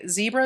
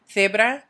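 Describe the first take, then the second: First: Said in the usual way. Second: Zebra said the Spanish way, opening on TH as in think; Castilian TH sound. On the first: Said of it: "Zebra is the same way". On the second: Shown as a demonstration. Teacher modelling Spanish spelling, zebra with Castilian TH. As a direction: start zebra with TH, short E, tapped R. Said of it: "I pronounce C's and Z's with a T H sound".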